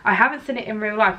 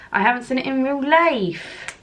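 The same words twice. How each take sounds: First: Said in the usual way. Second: A half-hearted stab at a Suffolk accent, a bit higher; attempted Suffolk accent. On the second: Shown as a demonstration. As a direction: try a Suffolk accent and miss. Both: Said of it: "that is not a Suffolk accent".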